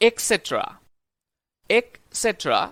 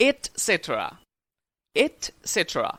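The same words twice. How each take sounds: First: "etcetera" with a k, "ek-setra"; common mispronunciation. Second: "etcetera" with a t, "et-setra"; correct pronunciation. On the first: Teacher shows learners their usual slip, mispronounced with a k. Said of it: "সাধারণত আমরা উচ্চারণ করে থাকি". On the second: Teacher models the right word, correct t sound. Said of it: "কিন্তু শুদ্ধ উচ্চারণ হবে". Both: Shown as a demonstration.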